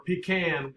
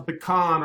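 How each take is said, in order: First: Pecan said as PEE-can; "pecan" as PEE-can, ending like tin can; alternative regional pronunciation. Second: Pecan said as puh-KAHN; "pecan" as puh-KAHN, ending like "con"; regional pronunciation. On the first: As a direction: say pecan with a long "pee" first and "can" after. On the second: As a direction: say pecan with stress on a second syllable "kahn". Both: Shown as a demonstration. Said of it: "depending upon where you're from".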